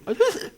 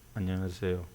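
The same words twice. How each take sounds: First: The voice is pitched slightly higher. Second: The voice is pitched low. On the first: "조금 높이면" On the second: "자꾸 낮추다 보니까 소리가 어떻게 나느냐"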